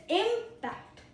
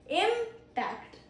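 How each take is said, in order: First: The stress is on the first syllable. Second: The stress is on the first syllable.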